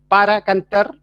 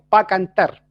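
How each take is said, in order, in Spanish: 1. Las dos sílabas de 'para' se pronuncian completas. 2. 'Para' se acorta y se une a la palabra siguiente. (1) "En vez de decir" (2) "decimos ... mezclamos las palabras o las vamos acortando"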